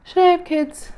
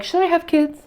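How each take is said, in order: First: Higher, softer and more distant, asked again; repeating it to herself, drifting and high; dreamy echo. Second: Higher and softer, asking herself; a hint of self-doubt, voice lifted high; musing question. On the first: Retold or imitated. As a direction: echo the question as if far away. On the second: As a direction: wonder aloud, half to herself. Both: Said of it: "where I'm like".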